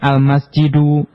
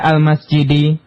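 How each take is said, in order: First: The word ends with a u vowel. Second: The word ends with an i vowel. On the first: The speaker calls it wrong. "bukan al-masjidu" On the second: The speaker calls it right. "al-masjidi dibaca al-masjidi"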